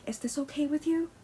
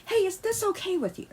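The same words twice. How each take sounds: First: Higher, softer gentle question; you held softly at the end; mock polite ask. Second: Higher, sing-song polite question; Hey said high and sweet; mock sweet ask. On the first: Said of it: "really ask them". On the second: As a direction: ask it sweetly, like a model partner. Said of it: "really ask them, like".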